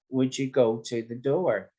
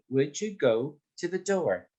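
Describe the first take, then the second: First: All the words are said evenly. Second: The words go and door are raised.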